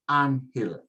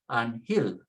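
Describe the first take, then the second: First: The stress is not on the last syllable. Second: The stress is on the last syllable. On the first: The speaker calls it right. "Do what the accent mark tells you" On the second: The speaker calls it wrong. "we should be putting the accent on hill"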